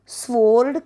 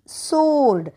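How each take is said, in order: First: The word begins with an s then w sound. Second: The word begins with a plain s sound. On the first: The speaker calls it wrong. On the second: The speaker calls it right.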